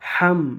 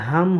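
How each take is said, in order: First: The h comes deep from the throat. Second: The h is a plain, light breath. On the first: The speaker calls it right. "বড় হা, এটা গলার ভেতর থেকে বের করতে হবে" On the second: The speaker calls it wrong. "এই হাম হবে না"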